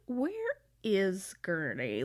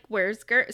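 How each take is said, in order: First: It sounds weary with a hint of threat. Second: It sounds light and casual. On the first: He suspects her and demands to know what she did. "this level of, like, kind of weariness or threat behind it" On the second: It is a simple passing question. "he doesn't say it like"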